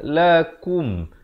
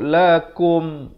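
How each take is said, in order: First: The second syllable is said with a u vowel. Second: The second syllable is said with an o vowel. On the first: The speaker calls it right. "Yang terbaik ialah lakum. K U M bukan K O M" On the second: The speaker calls it wrong. "ramai orang silap, dia sebut lakum"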